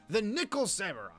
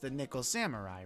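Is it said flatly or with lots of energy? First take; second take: energetic; flatly. First: It is said with lots of energy. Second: It is said flatly, without extra energy.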